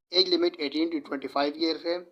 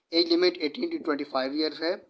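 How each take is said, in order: Both takes have the same delivery.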